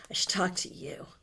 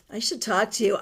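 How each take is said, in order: First: Soft whisper to herself; whispered aside. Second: Said in the usual way. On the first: Real, not acted. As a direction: murmur it under the breath as a private note. Repeats the line to herself.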